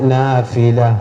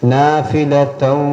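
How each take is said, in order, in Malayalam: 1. പദം സാധാരണ സ്വരാക്ഷരത്തിലാണ് അവസാനിക്കുന്നത്. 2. പദം -tan എന്ന അക്ഷരത്തോടെയാണ് അവസാനിക്കുന്നത്. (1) "നിർത്തുകയാണെങ്കിൽ നാഫില" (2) "നിർത്താതെ ഒന്നാണെങ്കിൽ നാഫിലതൻ"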